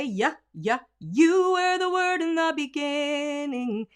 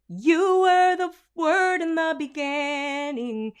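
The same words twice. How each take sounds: First: "you" begun with a firm "ya", slow; strong Y onset. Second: Sung, the line before the fix; sung demo. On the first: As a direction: lead in with "yeah" to hit the Y. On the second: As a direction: sing it slow and high. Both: Shown as a demonstration. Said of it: "If we will just say".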